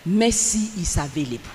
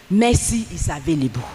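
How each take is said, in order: Both takes have the same delivery.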